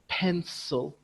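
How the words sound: It is said with English word stress. "In English, we say pencil"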